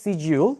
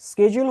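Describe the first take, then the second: First: The word is said in a British accent. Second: The word is said in an American accent. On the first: "ব্রিটিশরা বলে এটাকে সিজিউল" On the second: "স্কেজুল হচ্ছে American accent"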